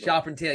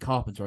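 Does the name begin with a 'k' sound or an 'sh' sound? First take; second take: sh; k. First: The name begins with a soft 'sh' sound. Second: The name begins with a hard 'k' sound. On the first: The speaker calls it right. "Charpentier. Yeah, he's very very fancy name" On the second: The speaker calls it wrong. "I kept calling him Carpenter"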